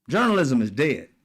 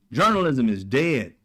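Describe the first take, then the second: No difference in how they are said.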